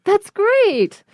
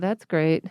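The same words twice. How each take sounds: First: It sounds sincere, with strong stress on great. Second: It sounds sarcastic and annoyed. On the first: The speaker really thinks it is great. "the straight way" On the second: The speaker is actually annoyed by it. "Or you can do it like sarcastic"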